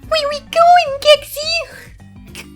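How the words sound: It is said in a high, squeaky voice.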